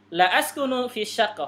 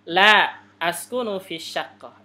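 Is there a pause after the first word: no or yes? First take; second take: no; yes. First: There is no pause after the first word. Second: There is a pause after the first word. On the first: I do not live in an apartment. "artinya saya tidak tinggal di apartemen" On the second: No; I live in an apartment. "Ini artinya berarti tidak, saya tinggal di apartemen"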